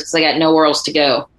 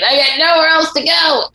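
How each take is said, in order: First: Said in the usual way. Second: Much higher, anguished film quote; hammed-up Richard Gere pleading; dramatic movie line. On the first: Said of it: "Gossett Junior says... And he says". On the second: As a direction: cry it out like a broken recruit. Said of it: "And he's standing in the rain".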